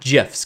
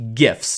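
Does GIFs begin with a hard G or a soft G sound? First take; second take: soft G; hard G. First: The word begins with a soft G sound. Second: The word begins with a hard G sound. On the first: The speaker calls it wrong. "not GIFs" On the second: The speaker calls it right. "it is pronounced GIFs, ... G stands for graphics"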